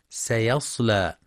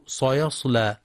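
First: سيصلى opened with a thin, clear س; سيصلى with plain s before the heavy ص; light sin. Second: صيصلى opened with a thick, dark s like ص; heavy sin, mistaken. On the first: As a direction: keep the first s of سيصلى light. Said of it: "والصواب ترقيقها". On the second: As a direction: make the first s of صيصلى emphatic. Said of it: "بتفخيم السين". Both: Shown as a demonstration.

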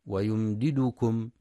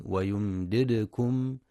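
First: ويمددكم with a u vowel on the second dal; mock mistake in ويمددكم; wrong u on dal. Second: ويمددكم with the second dal silent and echoed; careful demo of ويمددكم; silent bouncing dal. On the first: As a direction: show the error: "yumdidukum". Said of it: "بضم الدال". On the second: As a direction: give the دال in ويمددكم a small bounce. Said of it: "لسكون الدال الثانية وقلقلتها". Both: Shown as a demonstration.

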